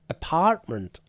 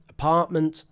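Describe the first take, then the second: First: It is said in an American accent. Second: It is said in a British accent. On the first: "in American pronunciation" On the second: "I'm doing British pronunciation of American words"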